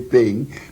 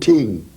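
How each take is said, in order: First: The word begins with a th sound. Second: The word begins with a plain t sound. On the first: This is the standard English word. "They couldn't say thing" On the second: This is how West Indian singers said it. "They couldn't say thing, so say gossip, gossip, evil ting"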